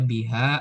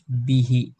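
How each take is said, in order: First: The word ends with an a vowel. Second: The word ends with an i vowel. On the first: The speaker calls it wrong. "nggak mungkin dibaca biha" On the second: The speaker calls it right. "tapi harus bihi"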